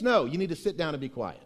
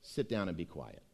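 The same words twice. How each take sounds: First: Said in the usual way. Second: Softer and lower, settling down; quiet. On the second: Shown as a demonstration. Preacher hushing his congregation, said low and soft.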